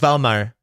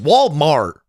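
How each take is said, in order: First: It is said with a Mexican accent. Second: It is said with an American accent. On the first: "when a Mexican goes like Valmar" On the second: "we don't say, no, it's Walmart"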